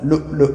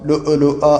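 First: The glottal stop is released without any bounce. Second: The glottal stop is released with an echoing bounce. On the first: The speaker calls it right. "ലുഉലുഅ എന്നാണ് പറയേണ്ടത്" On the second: The speaker calls it wrong. "സാധാരണഗതിയിൽ ഇവിടെ തെറ്റാറുള്ളൊരു ഭാഗം ലുഉലുഅ എന്ന് പറയും"

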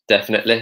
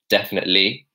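First: Said in a Yorkshire accent, with a light final sound. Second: Said in a South London accent, with a heavy final y. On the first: "it's like kind of like a Yorkshire feature" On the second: "from South London, I would say definitely, and I would really heavily pronounce the Y there"

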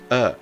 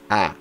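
First: The vowel is an a leaning toward o. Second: The vowel is a plain open Portuguese a. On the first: The speaker calls it right. "Eu disse A. Office" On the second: The speaker calls it wrong. "Perceba que eu não disse A"

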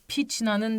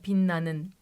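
First: The middle has a ch sound before n. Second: The middle sounds like a double n. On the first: The speaker calls it wrong. "Piçna'nın demiyor değil mi?" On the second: The speaker calls it right. "Pinna'nın solo diyor ya"

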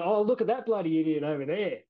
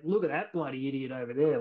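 First: It sounds light and not really mean. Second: It sounds harsh and truly insulting.

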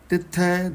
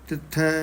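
No difference in how they are said.

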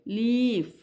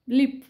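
First: The vowel is long and drawn out. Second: The vowel is short and clipped. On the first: The speaker calls it right. "उच्चार दीर्घ येतोय" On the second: The speaker calls it wrong. "Short sound झाला"

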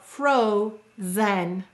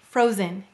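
First: The second vowel is fully pronounced and equally stressed. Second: The second vowel is reduced to a schwa. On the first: This form helps with spelling the word. "We'll articulate and stress each vowel equally" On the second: This is the normal spoken form. "it says frozen. Again, it's being a lazy or schwa'd vowel"

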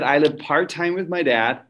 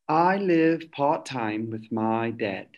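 First: It is spoken in a Texan accent. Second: It is spoken in a British accent. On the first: The speaker calls it right. "I'm going to go back to Texan because I'm better at it" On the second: The speaker calls it wrong. "read it in a British accent"

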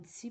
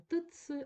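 First: A single lengthened 'ts' sound is heard. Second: A separate 't' sound comes before 'ts'. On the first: The speaker calls it right. "а вимовляємо ці подовжений" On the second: The speaker calls it wrong. "і вимовляємо не тиц"

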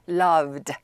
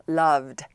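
The two takes are said the same way.

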